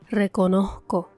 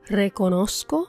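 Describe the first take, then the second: First: The z is a faint, sigh-like breath. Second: The z is a clear s sound. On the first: "con la pronunciación puertorriqueña" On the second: "la traducción en español estándar"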